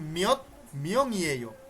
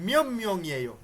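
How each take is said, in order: First: The first word ends with a t sound. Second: The first word ends with an m sound. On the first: This is how it is written and expected to sound. "আপনার জানা মতে এটা হওয়ার কথা ছিল" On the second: This is how native speakers actually say it. "ওদের কথা শুনবেন, আপনি শুনবেন"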